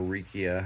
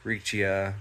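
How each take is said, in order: First: Riccia said as REE-kee-uh; hard K pronunciation. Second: Riccia said as REE-chee-uh; soft CH pronunciation. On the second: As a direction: say Riccia with a CH sound, like "reetchia". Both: Shown as a demonstration. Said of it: "however you prefer to pronounce it".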